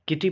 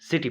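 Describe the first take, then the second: First: The word begins with a k sound. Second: The word begins with an s sound. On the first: The speaker calls it wrong. "किटी पढ़ते हैं या सिटी पढ़ते हैं?" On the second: The speaker calls it right. "सिटी पढ़ते हैं"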